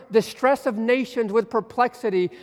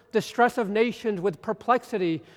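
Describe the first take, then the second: Both takes have the same delivery.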